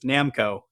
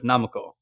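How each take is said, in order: First: It is said with an American pronunciation. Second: It is said with a Japanese pronunciation. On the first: The speaker calls it wrong. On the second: The speaker calls it right.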